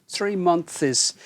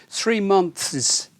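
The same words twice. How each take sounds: No difference in how they are said.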